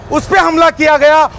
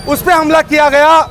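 Both takes have the same delivery.

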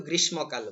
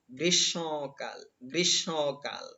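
First: গ্রীষ্মকাল run together as "grish-mo-kal"; common mispronunciation. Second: গ্রীষ্মকাল slowly as "grish-shõ-kal", nasal o; correct nasal pronunciation. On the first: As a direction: quickly say গ্রীষ্মকাল with a full m. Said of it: "আমরা কিন্তু গ্রীষ্মকাল বলি". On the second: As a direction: sound out গ্রীষ্মকাল through the nose on "shõ". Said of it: "নাক দিয়ে উচ্চারণ করতে হবে". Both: Shown as a demonstration.

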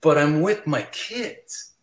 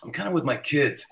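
First: Slow, drawn-out protest; pointed, slow pleading objection; insistent refusal. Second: Gently begging off; mild polite refusal. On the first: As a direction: stretch it out to insist. Insists after fan pushes back. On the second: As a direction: turn them down lightly, casually. First, mild excuse to a fan. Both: Retold or imitated.

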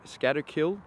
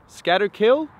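First: Said in the usual way. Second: High, loud rising question on Scatterkill. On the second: Real, not acted. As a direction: try the name out loudly, pitch climbing. Louder second try at name.

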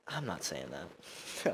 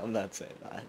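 First: Slow, much softer refusal; quiet embarrassed refusal; backing out. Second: Soft giggling no; sheepish laughing refusal. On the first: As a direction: drop to a hushed, sheepish no. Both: Real, not acted.

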